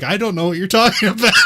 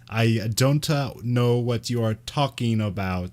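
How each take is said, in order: First: It is quick, with sounds reduced and linked. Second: It is slow, with every sound carefully pronounced. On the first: The speaker calls it right. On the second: The speaker calls it wrong.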